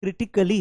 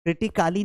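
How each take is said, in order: First: "क्रिटिकली" with short "kuh"; kri-ti-kuh-li for "क्रिटिकली", no long aa; correct pronunciation demo. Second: "क्रिटिकाली" with a long "kaa"; wrong pronunciation demo. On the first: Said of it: "वो क ही है". ("क्रिटिकली" में छोटा "क") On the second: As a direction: stretch the middle vowel, kriti-KAA-li in "क्रिटिकाली". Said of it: "क्रिटिकाली नहीं पढ़ते". ("क्रिटिकाली" में लंबा "का") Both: Shown as a demonstration.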